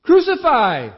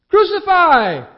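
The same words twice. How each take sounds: First: Loud, much higher cry of Crucify!; a high shouted Crucify!; crowd shouting. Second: Louder, higher, slow drawn-out Crucify!; the mob's peak Crucify!, slowed and very loud; crowd screaming. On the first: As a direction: hurl out Crucify! as a mob. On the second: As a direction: stretch Crucify! into a full scream. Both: A narrator's reading. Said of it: "they shouted".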